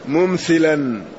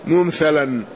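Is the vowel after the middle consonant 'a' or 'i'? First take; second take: i; a. First: The middle consonant takes an 'i' vowel. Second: The middle consonant takes an 'a' vowel. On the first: "وفي البخاري بالكسر" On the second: "جمهور الرواة بالفتح"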